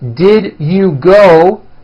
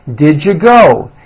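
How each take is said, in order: First: Each word is said fully and separately. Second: The words are reduced and run together.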